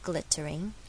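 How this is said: The middle T is a clear T sound. "所以这边是英式"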